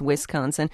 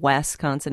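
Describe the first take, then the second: First: The first syllable sounds like 'wis'. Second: The first syllable sounds like 'wes'. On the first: The speaker calls it right. "it's Wisconsin" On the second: The speaker calls it wrong. "no, it's not Wisconsin"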